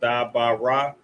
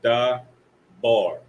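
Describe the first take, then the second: First: Each letter sound is said as a separate syllable. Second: The sounds are joined into one two-syllable word. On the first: "So you identify the characters" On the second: "put it together"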